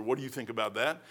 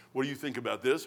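First: What do you think about that, with that stressed and rising. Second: What do you think about this, with this stressed and rising; this stressed, quiet rising question. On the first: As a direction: hit that at the end with a lift. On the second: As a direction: lean on this, lifting it. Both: Shown as a demonstration.

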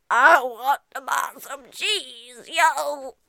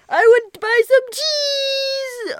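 First: Slow laid-back customer voice with yo; cool customer voice. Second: High slow silly customer voice. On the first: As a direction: drawl it like a cool guy. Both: Acted. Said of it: "That's what he sounded like".

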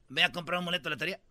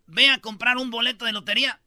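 First: Rattled off fast and a bit lower; tossed-off quick mumble of advice; fast throwaway repeat of the same tip; rushed advice. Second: Said in the usual way. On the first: Retold or imitated. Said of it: "¿Quieres ganarte la lotería?". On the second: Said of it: "Y les dices".

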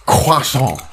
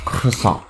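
First: "Croissant" said kwah-SON, nasal French way; "Croissant" as kwah-son with French vowels; mock French accent. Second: Said in the usual way. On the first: Shown as a demonstration. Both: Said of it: "repeating the word".

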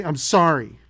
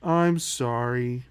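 First: Quick, loud throwaway sorry; mock grudging child's apology; insincere apology. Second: Slow, drawn-out, low sorry; mock-contrite child ordered to apologize; forced sincere apology. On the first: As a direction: toss off a kid's apology you don't mean. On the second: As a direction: drag out a kid's apology as if you mean it. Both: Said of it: "Say it like you mean it".

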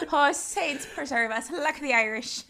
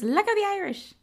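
First: High, drawn-out hammed-up Irish accent; bad Irish accent. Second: High-pitched first stab at the grandmother; quick, high quote of an Irish granny; mock Irish grandmother. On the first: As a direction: badly fake an Irish granny's exclamation. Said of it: "that's not a good accent". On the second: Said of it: "Not like that, but she's like".

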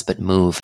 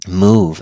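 First: Said in the usual way. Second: "move." punched out louder as a command; firm, louder "move." that stands alone; stress on move. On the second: Shown as a demonstration. Host urging grieving listeners to get up, "move." said louder.

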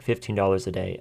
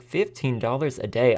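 First: Said in the usual way. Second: Incredulous question rising at the end; mild mock shock at the pay; disbelief. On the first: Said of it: "you reread it and it's like". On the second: Juror reacting to the pay sheet, mild disbelieving question. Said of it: "But I was like".

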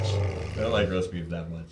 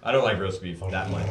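First: Mock sob. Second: Said in the usual way.

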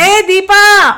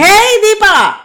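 First: Much higher, louder shout; calling out. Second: Much higher, much louder yell; louder shout. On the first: Anu shouting up the stairs for Deepa, loud call. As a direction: call up from downstairs. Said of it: "కేక వేస్తోంది". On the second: Anu yelling for Deepa again even louder, loud shout. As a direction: bellow up from below. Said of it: "మరింత గట్టిగా అరిచింది". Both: Acted.

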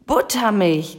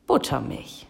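First: Lightly voiced screeching raven; mild indignant screech, like a raven. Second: Said in the usual way. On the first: A narrator's reading. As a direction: squawk it in mock outrage, restrained. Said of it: "kreischte Abraxas".

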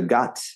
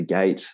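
First: Gate said as "gat", short open vowel; French-accented vowel. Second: Said in the usual way. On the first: Shown as a demonstration. Coach isolating his friend's error, gate as "gat". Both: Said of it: "is just not close enough to gate".

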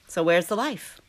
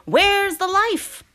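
First: Said in the usual way. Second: High, slow, pleading; emphatic question. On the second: Acted. Emphatic rhetorical question, repeated.

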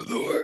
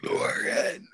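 First: Name burped out again; burping the words. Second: Name burped out on a belch; burping the words. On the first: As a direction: belch the name once more. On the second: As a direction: belch the name in one long burp. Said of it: "it's so fucking creepy". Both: Pretend.

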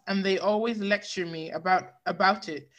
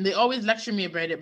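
First: Words broken by a burp. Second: Said in the usual way. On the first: Real, not acted. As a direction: read on through a burp. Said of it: "Sorry, I had to burp". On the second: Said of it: "Okay, I'm better".

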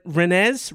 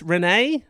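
First: "Rennes" as "ren-EZ", questioning rise; unsure pronunciation. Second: "Rennes" as "ren-AY", questioning rise; unsure pronunciation. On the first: Host guessing city name, "Rennes" as ren-EZ, questioning. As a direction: try "Rennes" with the ending sounded, as ren-EZ. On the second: Host guessing city name, "Rennes" as ren-AY, questioning. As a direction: try "Rennes" with silent ending, as ren-AY. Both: Shown as a demonstration. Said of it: "should have looked up how to say this".

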